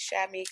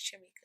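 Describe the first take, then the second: First: The name begins with a 'sh' sound. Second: The name begins with a 'ch' sound. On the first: The speaker calls it wrong. "they automatically assume it's" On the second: The speaker calls it right. "but my name is"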